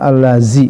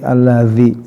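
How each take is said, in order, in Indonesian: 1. Konsonannya bunyi z biasa. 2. Konsonannya bunyi seperti th. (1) "Jangan sampai pengucapan allazi" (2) "lidahnya harus dikeluarkan"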